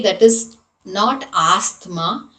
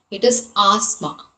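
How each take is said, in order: First: Asthma with the T H sounded, /astma/; asthma, T spoken; wrong asthma. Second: Asthma said /asma/, no T; silent T H asthma. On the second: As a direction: drop the T H in asthma. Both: Shown as a demonstration. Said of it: "T and H has to be silent".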